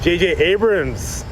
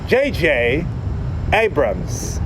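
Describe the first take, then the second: First: The name is slurred and stumbled over. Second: The name is carefully and clearly enunciated. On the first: The speaker calls it wrong. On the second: The speaker calls it right.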